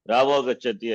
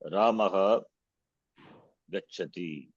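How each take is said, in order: First: The two words run together without a pause. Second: There is a pause between the two words. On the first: "I will say without pause" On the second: "Is there pause between the words?"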